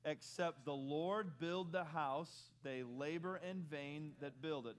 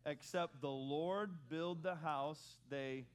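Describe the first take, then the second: First: The same slow reading with a bit more punch; a touch more zip. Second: Slow, spaced unison reading; slow congregational reading; group recitation. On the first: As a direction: give Except the Lord build the house more energy. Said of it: "read it one more time with a little more zip". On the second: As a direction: read the phrase together, word by word. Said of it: "Can we say that first phrase together". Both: Shown as a demonstration.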